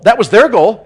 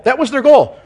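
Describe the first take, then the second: First: Their hit louder, set against the plain reading; stress on their. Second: Goal pushed much higher and louder; stress on goal, raised high. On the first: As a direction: lean on the word their. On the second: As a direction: lift the line to a high peak on goal. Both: Shown as a demonstration.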